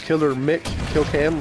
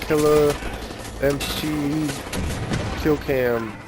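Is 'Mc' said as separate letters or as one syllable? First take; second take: one syllable; separate letters. First: Mc is said as the syllable Mick. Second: Mc is spelled out as two letters. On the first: The speaker calls it right. "that's how you say it" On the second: The speaker calls it wrong. "I can see the confusion"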